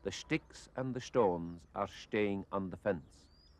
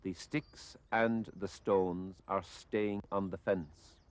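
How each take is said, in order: First: "sticks", "stones", "staying" with sh for s before t; slow Kerry "sht" in "sticks" and "stones"; Kerry pronunciation. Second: "sticks", "stones", "staying" with a plain s before t; slow, careful demo, plain "st" in "sticks" and "stones"; standard s sounds. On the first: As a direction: say "sticks", "stones" and "staying" slowly as "shticks", "shtones", "shtaying". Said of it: "that person might say". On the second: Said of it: "if a person were saying". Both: Shown as a demonstration.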